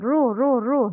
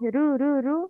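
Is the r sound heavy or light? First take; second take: heavy; light. First: The r syllables are said heavy and full. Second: The r syllables are said light and thin. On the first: The speaker calls it right. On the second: The speaker calls it wrong. "Not not light"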